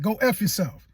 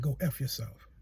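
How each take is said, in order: First: Said in the usual way. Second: Low, soft, solemn voice of God; God's voice. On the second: Retold or imitated. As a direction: speak it down low as God would. God speaks in the retold vision.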